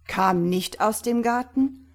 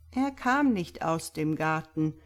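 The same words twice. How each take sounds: First: Loud, higher incredulous question; blurted out. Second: Said in the usual way. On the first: A narrator's reading. Doctor throwing the priest's words back, blurting. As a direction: burst out with the echo. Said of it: "platzte Simon heraus".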